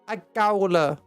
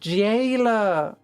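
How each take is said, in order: First: The first vowel sounds like 'ow'. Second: The first vowel sounds like 'ay'. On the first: The speaker calls it wrong. "I said jowler, didn't I? Not jailer" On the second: The speaker calls it right. "It's pronounced jailer"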